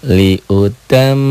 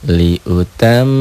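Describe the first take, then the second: No difference in how they are said.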